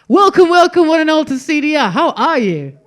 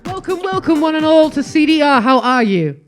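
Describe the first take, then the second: First: The greeting sounds lively and convincing. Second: The greeting sounds flat and unconvincing.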